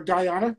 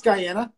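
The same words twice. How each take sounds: First: "Guyana" with an open "ah", guy-AH-nuh; broad-A Guyana. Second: "Guyana" with the A of "cat", guy-ANN-uh; short-A Guyana. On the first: Host giving the second option, "Guyana" as guy-AH-nuh. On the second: Host giving the first option, "Guyana" as guy-ANN-uh. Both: Shown as a demonstration. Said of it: "depends on what your accent is".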